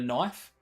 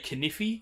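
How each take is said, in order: First: It is said as one syllable. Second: Every letter is sounded, giving two syllables.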